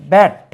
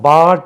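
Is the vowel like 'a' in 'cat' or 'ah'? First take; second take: cat vowel; ah. First: The vowel is a front 'a' as in cat. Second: The vowel is an open 'ah' sound. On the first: The speaker calls it right. "இந்த தமிழில் இந்த sound இல்லை" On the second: The speaker calls it wrong. "பாட் என்று கூட தவறாக உச்சரிக்கலாம்"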